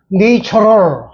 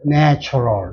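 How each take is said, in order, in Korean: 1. 첫 음절은 'nature'에서처럼 'nay'로 들려요. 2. 첫 음절은 짧은 a의 'nach'로 들려요. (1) "네이처럴 하면 되겠네. 그런데 그게 아니라" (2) "네이처럴이 아니라 내추럴이 되더라"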